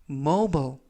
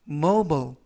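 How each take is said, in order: Both takes have the same delivery.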